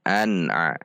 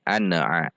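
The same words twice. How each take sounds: First: An-a joined directly, N held on tongue tip; not bounced. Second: An-a with a small vowel bouncing off N; bounced N. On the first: Teacher models correct reading, an-a without bounce. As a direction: hold N of an until a starts. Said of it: "Supaya tidak memantul". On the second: Teacher shows what to avoid, an-a bounced. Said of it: "Sehingga tidak berbunyi". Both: Shown as a demonstration.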